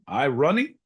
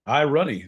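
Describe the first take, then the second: First: "irony" higher, ending on a rise; rising inflection. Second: "irony" pitched high, then falling at the end; falling inflection. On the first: Host trying inflections, "irony" with a rising questioning tune. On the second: Host settling the inflection, "irony" said high with a closing fall. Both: Shown as a demonstration. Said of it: "That's a little infection".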